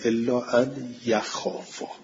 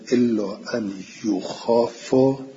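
First: The verb begins with a ya sound. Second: The verb begins with a yu sound. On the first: The verb is active: they themselves fear. "بقیه گفتن ... به فتح ها" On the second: The verb is passive: they are made to fear. "ابو جعفر و حمزه گفتن"

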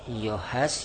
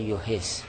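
First: The word is said in its passive form. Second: The word is said in its active form. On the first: The sound is perceived. "حس میشود" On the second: The hearing perceives it. "سامعه من حس میکند"

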